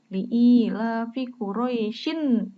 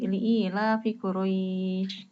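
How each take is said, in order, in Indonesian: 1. Kata terakhir berakhir dengan bunyi n tambahan. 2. Kata terakhir berakhir tanpa bunyi n. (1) "mau dilanjutkan ke ayat dua" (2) "kan berhenti"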